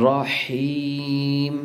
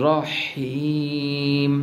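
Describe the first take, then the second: No difference in how they are said.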